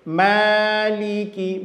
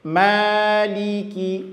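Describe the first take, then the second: No difference in how they are said.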